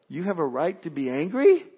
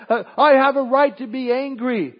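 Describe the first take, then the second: First: At normal level, rising on angry in disbelief; incredulous question. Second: Higher, louder petulant insistence on I; whiny protest. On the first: God questioning the sulking believer, calm incredulous rise. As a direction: gently throw his claim back at him. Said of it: "And God says to us". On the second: Believer insisting to God, higher and louder, petulant. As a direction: stamp your foot on the words. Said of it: "And we say". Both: Pretend.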